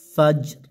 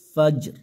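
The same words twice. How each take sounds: First: The word ends on the r sound. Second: The same.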